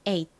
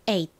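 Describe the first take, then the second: First: The final t is swallowed and unreleased. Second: The final t is swallowed and unreleased.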